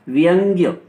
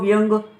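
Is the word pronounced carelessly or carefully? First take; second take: carefully; carelessly. First: The word is pronounced in a careful, standard way. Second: The word is pronounced in a careless, hasty way. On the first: The speaker calls it right. "जबकि ये होता है व्यंग्य" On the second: The speaker calls it wrong. "व्यंग बोल जाते हैं इसको, व्यंग अपने व्यवहार में"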